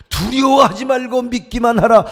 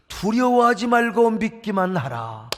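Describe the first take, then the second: First: Loud, rising proclamation; louder proclamation. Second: Calm, slow, measured delivery; slow solemn command. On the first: Preacher repeating Jesus's words, louder and bolder. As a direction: declare it boldly the second time. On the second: Jesus speaking to Jairus, slow and calm. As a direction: speak it slowly and gently first. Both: Acted.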